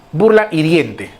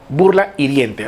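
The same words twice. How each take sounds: First: Burla hiriente said slowly and deliberately; slow emphasis. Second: Said in the usual way. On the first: Shown as a demonstration. Teacher dictates the definition to students, slow and deliberate.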